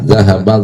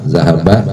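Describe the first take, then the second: No difference in how they are said.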